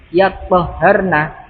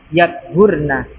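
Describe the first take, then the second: First: The t and h sounds are doubled. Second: The t and h sounds are single. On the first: The bleeding has stopped and she has bathed. "toknya ditasdid, haknya juga ditasdid" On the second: The menstrual bleeding has stopped. "toknya disukun, haknya didomah"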